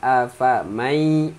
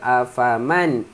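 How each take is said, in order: First: The n sound merges into the following y. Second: The n sound is pronounced clearly. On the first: The speaker calls it right. "afamai mai" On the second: The speaker calls it wrong. "Dia bukan afaman"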